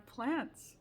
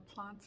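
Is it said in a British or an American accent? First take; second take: American; British. First: It is said in an American accent. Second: It is said in a British accent.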